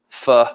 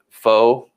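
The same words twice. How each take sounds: First: The vowel sounds like 'uh'. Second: The vowel sounds like 'oh'. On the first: This is the corrected way the niece says it. "she says nope, it's pho pho or something like that" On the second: This is how the speaker always said it. "for twenty years of my life, I called it pho noodles"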